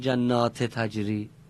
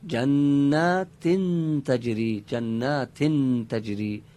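First: The first word ends in a plain -ti vowel. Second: The first word ends in -tin with nunation. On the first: The speaker calls it wrong. "اگر تنوینه چرا بگیم جنات تجری؟" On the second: The speaker calls it right. "بعد بگیم جنات تجری به این شکل"

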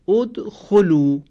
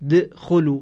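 First: The word starts with a vowel before the d. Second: The word starts directly on a bare d sound. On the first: The speaker calls it right. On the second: The speaker calls it wrong. "تلفظ این کلمه با دال ساکن مشکل هست"

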